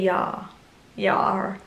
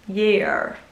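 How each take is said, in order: First: The word has a strong English accent, like 'yar'. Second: The word has a weaker English accent, like 'year'. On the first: The speaker calls it wrong. "I always say year funny. I say yar" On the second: The speaker calls it right. "I try and say it with like a less English accent"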